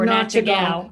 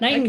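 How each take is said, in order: First: The name begins with a short 'nat' sound. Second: The name begins with a long 'night' sound. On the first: The speaker calls it wrong. "any of the other ways that we've said it wrong" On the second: The speaker calls it right. "I can say that"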